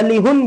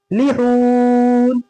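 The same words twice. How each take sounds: First: "लिहुन" with "हुन" cut short; wrongly shortened vowel. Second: "लिहून" with short "लि", very long held "हून"; long haa. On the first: Teacher showing another wrong reading, wrongly shortened vowel. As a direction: say both syllables of "लिहुन" short. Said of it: "लिहुन भी नहीं". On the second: Teacher showing the right stretch, long haa. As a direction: hurry "लि" and hold "हून". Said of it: "हा को खींचेंगे". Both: Shown as a demonstration.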